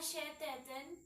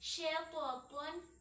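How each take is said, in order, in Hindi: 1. t की ध्वनि हल्की और पतली है। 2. t की ध्वनि भारी और भरी हुई है। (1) "शैतान ये गलत है" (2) "इसको पूर पढ़ें"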